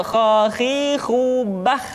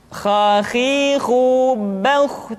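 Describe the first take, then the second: First: "khakhihu bah" slowly chanted with thin open vowels; thin, wrong kh. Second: "Khakhihu bauh" slowly chanted with thickened vowels; thick heavy kh. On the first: Teacher demonstrating the mistake, "khakhihu bah" thin and slow. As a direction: keep "khakhihu bah" light, no thickening. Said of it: "tidak khakhihu bah". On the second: Teacher modelling correct kha, "Khakhihu bauh" thick and slow. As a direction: stretch "Khakhihu bauh", rounding the last syllable. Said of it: "menebal suaranya". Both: Shown as a demonstration.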